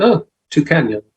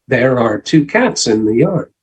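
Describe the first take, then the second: First: It is spoken fast with sounds dropped. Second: It is spoken slowly with every word clear. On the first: The speaker calls it wrong. "when I say it quickly, it comes out" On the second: The speaker calls it right. "Speak slowly and clearly"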